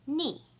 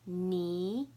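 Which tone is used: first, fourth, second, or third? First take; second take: fourth; second. First: The pitch falls sharply from high. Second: The pitch rises from mid to high.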